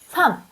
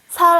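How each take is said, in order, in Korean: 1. 이 단어는 m 소리로 끝나요. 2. 이 단어는 l 소리로 끝나요. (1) "second, 두 번째 자음으로만 말해요" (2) "살 아니요"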